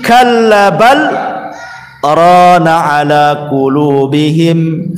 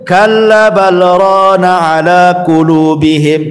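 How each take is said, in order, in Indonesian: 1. Ada jeda setelah kata bal. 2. Frasa ini berjalan terus tanpa jeda. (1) "Ada yang berhenti" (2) "ada juga yang tidak berhenti, langsung"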